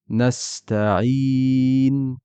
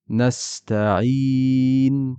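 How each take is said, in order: First: The long vowel is held for four counts. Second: The long vowel is held for four counts.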